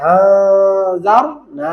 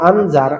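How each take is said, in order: First: আ held as a long nasal hum before জার; ikhfa pronunciation. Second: Said in the usual way. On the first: Shown as a demonstration. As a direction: stretch the ghunnah on আ. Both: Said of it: "আনজার হয়ে যাবে".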